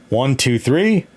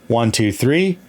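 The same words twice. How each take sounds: Both takes have the same delivery.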